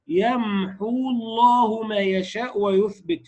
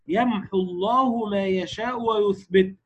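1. الحركة بعد h تُمدّ. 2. الحركة بعد h قصيرة. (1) "فلا تقول يمحو الله ما يشاء ويثبت فيها ثقل" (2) "ننطق بحاء مضمومة فقط ولا نشبع الضمة"

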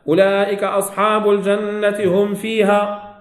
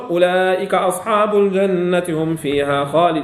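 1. تتوقف القراءة بعد «فيها». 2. تستمر القراءة بعد «فيها» دون توقف. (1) "عشان نفسها كملت" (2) "أرجع فأقول، آتي بنفس ما أقول"

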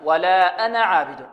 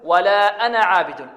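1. الحركة بعد النون قصيرة. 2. الحركة بعد النون قصيرة.

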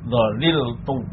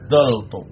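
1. Ada tiga suku kata, dengan konsonan tengah yang penuh. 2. Ada dua suku kata, vokal pertamanya adalah a. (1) "Yang pertama itmam, artinya tetap tidak ada perubahan" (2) "lam kalimahnya dibuang, fak kalimahnya harokatnya tetap"

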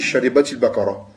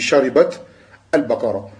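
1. Une voyelle i relie sharibat au mot suivant. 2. Sharibat finit sur t avant le mot suivant. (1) "Quand tu lis assemblé, tu dis" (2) "Et quand tu t'arrêtes, tu dis"

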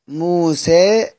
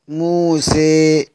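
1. الحركة الأخيرة تميل قليلًا نحو 'ee'. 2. الحركة الأخيرة تميل بقوة نحو 'ee'. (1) "تقليل" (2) "إمالة"

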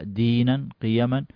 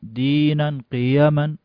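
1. تُمَدّ الحروف الطويلة حركتين فقط. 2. تُمَدّ الحروف الطويلة أكثر من حركتين. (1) "لا دينا قيما" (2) "ما نقول"

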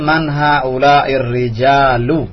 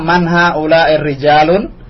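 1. Kata terakhir berakhir tanpa bunyi n. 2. Kata terakhir berakhir dengan bunyi n tambahan. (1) "Yang betul" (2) "jangan tanwin"

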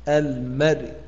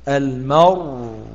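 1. ينتهي الحرف الأخير بحركة خفيفة قصيرة. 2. ينتهي الحرف الأخير بسكون محض.

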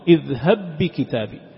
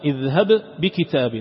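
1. يندمج الباءان في باء واحدة مشددة. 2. باءان منفصلتان، والأولى فيها قلقلة. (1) "عند الإدغام" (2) "بغير إدغام اذهب تظهر القلقلة"

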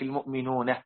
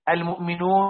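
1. تنتهي الكلمة بهاء خفيفة مضافة. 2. تنتهي الكلمة بشكل عادي دون هاء زائدة.

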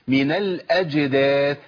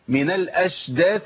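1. الجيم تُنطق صوت j واضح. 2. الجيم تُلين وتصير صوت sh.

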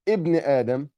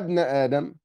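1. تُنطق الهمزة في بداية الكلمة. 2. تُحذف الهمزة في درج الكلام المتصل. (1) "هنا لما ابتدأت بكلمة ابن ظهرت الهمزة" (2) "هنا في درج الكلام لا تظهر"

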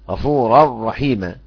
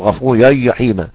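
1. الراء مُكرَّرة بوضوح. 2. الراء مُسقطة بدون تكرير. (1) "ارتعاد اللسان الى سقف الحنك" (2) "لو انا ضيعت ارتعاد اللسان ... ضاعت الراء"

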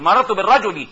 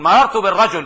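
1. الكلمة الأخيرة تنتهي بإضافة حركة i. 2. الكلمة الأخيرة تنتهي بحرف ساكن. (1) "بنقول مررت بالرجل، نسيب الرجل فيها فيها ياء" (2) "بدل ما نقول مررت بالرجل"

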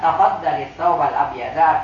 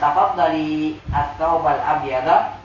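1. Vokal setelah tafaddal dibaca pendek. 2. Vokal setelah tafaddal dibaca panjang. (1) "kita tidak panjangkan" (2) "kalau misalnya kita panjangkan"

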